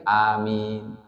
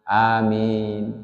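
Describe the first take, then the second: First: The vowels are drawn out long. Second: The same.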